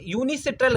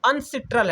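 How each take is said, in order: First: The word begins with the syllables 'yoo-nee'. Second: The word begins with the single syllable 'un'. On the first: The speaker calls it wrong. "गलत छपा" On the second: The speaker calls it right. "यूनी नहीं है, अनसिट्रल है"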